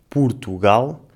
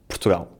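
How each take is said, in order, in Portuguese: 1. Ouve-se uma vogal curta oo depois do P. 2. Não se ouve nenhuma vogal entre o P e o R. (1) "em que o O se pronuncia como um U" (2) "muitas vezes o O e o U desaparecem e dizemos só"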